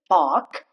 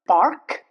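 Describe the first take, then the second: First: The R is silent, British style. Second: The R is sounded, American style. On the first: "it's obviously British" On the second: "But in American accent, R is pronounced"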